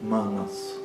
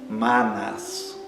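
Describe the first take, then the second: First: The first vowel is closed and quick. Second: The first vowel is open and drawn out. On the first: The speaker calls it right. "Um A fechado e a pronúncia é rápida desse A" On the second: The speaker calls it wrong. "não é manas"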